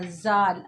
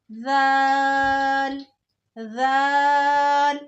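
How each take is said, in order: First: "जाल" with a plain z sound, tongue not touching the teeth, low; wrong plain z. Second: "जाल" held slowly, tongue tip touching the upper teeth, soft th sound; correct soft zaal. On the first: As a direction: demonstrate the wrong hard z in "जाल". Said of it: "इसको जाल नहीं पढ़ना". (गलत: "जाल" सादा ज़ से) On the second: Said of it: "तो हमने टच करनी है". (सही: "जाल" नरम, ज़ुबान दांतों पर) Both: Shown as a demonstration.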